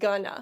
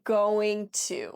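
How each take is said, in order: First: The words are reduced and blended into one. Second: Both words are said in full, clearly separated. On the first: It sounds natural and casual. "We pronounce this more like gonna" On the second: It sounds formal. "native speakers don't really say going to"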